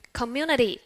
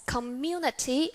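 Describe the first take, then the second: First: "community" ending like "-nidy"; American flap T. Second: "community" with a crisp T before the final vowel; British T. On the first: Teacher does the last example, American flap T. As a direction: soften the T in "community" into a D. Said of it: "how about American English". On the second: Teacher does the last example, British T. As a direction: sound a true T in "community". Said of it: "in British English we would pronounce as". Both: Shown as a demonstration.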